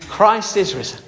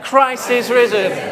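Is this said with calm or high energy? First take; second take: calm; high energy. First: It is said with ordinary, moderate energy. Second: It is said louder with more energy.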